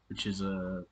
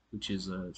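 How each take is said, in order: Both takes have the same delivery.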